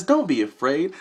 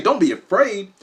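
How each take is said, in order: First: Mild, even reassurance; reassuring orb voice. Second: High-pitched disbelieving repeat; incredulous echo. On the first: Orb telling him not to fear, mild reassurance. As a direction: say it simply, to soothe. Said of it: "She says". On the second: Him answering the floating orb, incredulous echo. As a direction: throw the words back in disbelief. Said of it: "I say, "Don't be afraid?". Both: Retold or imitated.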